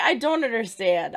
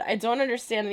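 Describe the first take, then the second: First: Frustrated outburst. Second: Said in the usual way. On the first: Real, not acted. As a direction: yell "I don't understand" in disbelief.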